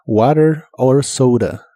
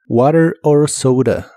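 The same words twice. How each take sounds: First: "Water or soda" slow, t like r; "Water or soda" drawn out, flap t; slow model phrase. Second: "Water or soda" slow, flapped t, ou in soda; "Water or soda" clearly and slowly; slow model phrase. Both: Shown as a demonstration. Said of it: "como R, water".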